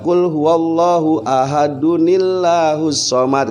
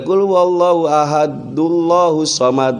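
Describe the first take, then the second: First: Ahad links to Allahus with an added 'n' sound. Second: Ahad links to Allahus with no 'n' sound. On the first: The speaker calls it right. "Kalau mau disambung pakai nun" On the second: The speaker calls it wrong. "Enggak boleh"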